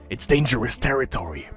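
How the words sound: It is read in a put-on villain voice.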